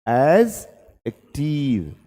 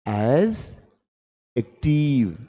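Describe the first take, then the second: The two takes are said the same way.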